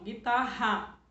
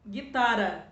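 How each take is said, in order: First: Guitarra with a strong throaty RR; strong double R. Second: Guitarra with a light tapped R; wrong soft R; soft single R. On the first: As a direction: give the RR in Guitarra a full guttural H-like sound. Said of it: "Dois R's, que é pra reforçar o som". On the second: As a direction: say Guitarra with a weak tapped R, as if written with one R. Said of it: "Se eu colocar um R só, ele não fica suave?". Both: Shown as a demonstration.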